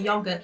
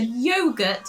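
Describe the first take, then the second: First: It is said in a natural British accent. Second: It is said in a mock British accent. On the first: It is how the British actually say it. The speaker calls it right. "We say yogurt" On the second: It is how outsiders imagine the British say it. The speaker calls it wrong. "in what they thought was a British accent"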